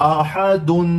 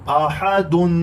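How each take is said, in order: The two takes are said the same way.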